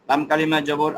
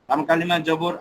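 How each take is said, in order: No difference in how they are said.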